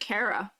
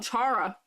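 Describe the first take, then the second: First: The name starts with a k sound. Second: The name starts with a ch sound. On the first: "I pronounce it Kara"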